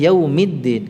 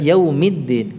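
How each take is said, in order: First: The vowel before 'ddin' is an i sound. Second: The vowel before 'ddin' is an i sound.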